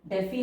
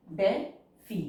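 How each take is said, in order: First: Said in the usual way. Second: DeFi split into "de" and "fi" with a clear gap; syllable by syllable. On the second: Shown as a demonstration. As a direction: pause inside DeFi after "de". Syllable-by-syllable while writing.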